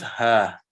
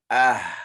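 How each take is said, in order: First: The syllable begins with a breathy h sound. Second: The syllable begins with a glottal catch. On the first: The speaker calls it wrong. "So it is not ha, ha, ha. This is what you are pronouncing. Ha fatha" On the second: The speaker calls it right. "But with the hamza, ah, ah"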